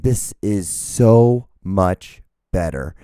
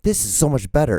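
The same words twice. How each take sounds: First: Louder, half-speed, with weight on "so" and "much"; each word stretched and separated for emphasis; slow emphatic relief. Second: Said in the usual way. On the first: Retold or imitated. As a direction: drag out "so much better" word by word. Repeats the quote with emphasis.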